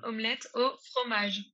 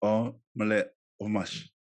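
First: Omelette au fromage spelled out slowly, a clear au and a French r; slow French model. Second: Omelette fromage said slowly, skipping the au; slow imitation, au dropped. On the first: French guest teaching the host slowly. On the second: Host slowly repeating after his French guest. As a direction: carefully copy it but leave out au. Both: Shown as a demonstration.

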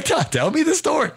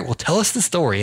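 First: Squeaky high mock prompt; high-pitched mock urging; eager prompt. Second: A hint of a smooth, cool host; lightly played smooth-talking host; smooth operator. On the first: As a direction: pipe it up high like an eager producer. Host mimics producer's eager prompt. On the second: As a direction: lay it on as a slick interviewer. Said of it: "I'm smooth operator".

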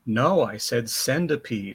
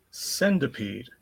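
First: "centipede" said with a d, "sendipede"; corrected centipede. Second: Slow drawn-out "Centipede". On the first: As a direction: correct it: "centipede" like "send a peed". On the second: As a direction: say "Centipede" slowly and clearly. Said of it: "Did you say centipede". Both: Shown as a demonstration.

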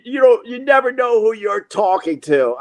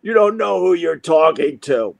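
First: High-pitched blustering warning; mock threat. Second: Threat restated near normal pitch; mock threat. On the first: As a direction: re-enact a raised-voice empty threat. Retold threat, then repeated. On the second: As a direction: repeat the empty warning in a more level voice. Same threat repeated in lower voice.

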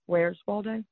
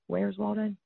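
First: Drawn-out Southern Where's Waldo, ending "Waldeh"; accent demo. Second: Softer Southern repeat of "Where's Waldo"; accent demo. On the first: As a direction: stretch "Waldo" into a Southern drawl. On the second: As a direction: say "Waldo" as "Waldeh", a bit quieter. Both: Shown as a demonstration. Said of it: "your accent gets in the way".

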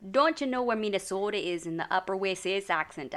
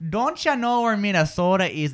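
First: Put-on Upper Midwest accent slipping towards Scottish; softer Minnesota accent, a little Scottish at the end; shaky Midwest accent, slightly Scottish. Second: Minnesota accent with long O's; Upper Midwest accent. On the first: [name] tries the Midwest accent and drifts Scottish. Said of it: "that was a little bit Scotland". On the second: Shown as a demonstration. Host models the Upper Midwest accent for [name]. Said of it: "in the Upper Midwest accent".

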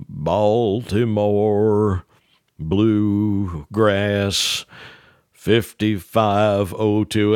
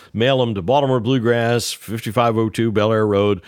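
First: Very slow, word by word with long pauses; slow dictation. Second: Said in the usual way. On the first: Retold or imitated. Ned dictating the address slowly to Earl. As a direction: dictate "Baltimore Bluegrass, fifty-five oh two" drawn out and spaced.

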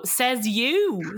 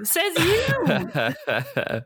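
First: Said in the usual way. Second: Laughing scoff. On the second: Retold or imitated. Host scoffing back at a housemate, laughing.

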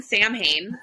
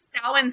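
First: Samhain said as SAM-hain; mistaken pronunciation. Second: Samhain said as SOW-in; correct pronunciation. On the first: Friend shows the common mistake, Samhain pronounced SAM-hayn. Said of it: "common mistake". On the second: Friend names the festival properly, Samhain pronounced SOW-in. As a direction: say Samhain as two syllables, SOW-un. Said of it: "It's pronounced Samhain". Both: Shown as a demonstration.

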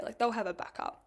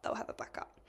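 First: Said in the usual way. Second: Whispered to herself; a reassuring whisper to herself. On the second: Retold or imitated. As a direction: breathe the words under your breath. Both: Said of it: "And I'm like".

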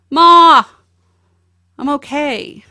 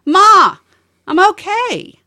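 First: High, loud call across an empty office; son calling out. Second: Higher and louder, calling from the other side of the house. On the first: Son calling to his mom from across the office, loud high call. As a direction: call out to your mom from far away. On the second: Son calling from the next room, louder and higher. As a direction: call it out the way he did from another room. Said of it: "he'd get louder". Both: Retold or imitated.

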